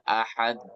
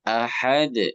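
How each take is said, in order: First: The final consonant is held with a pause. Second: The final consonant bounces out immediately. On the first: The speaker calls it wrong. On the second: The speaker calls it right. "Tapi langsung memantul"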